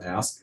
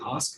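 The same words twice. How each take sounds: First: It is said with an American accent. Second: It is said with a British accent. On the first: "instead of ask" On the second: "if I'm talking to a British person, I'm going to say ask"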